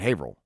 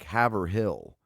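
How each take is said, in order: First: The name is clipped, with sounds dropped. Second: Every syllable of the name is sounded out. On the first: "they just pronounce it Haverhill" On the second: "it's spelled H A V E R, like Haverhill"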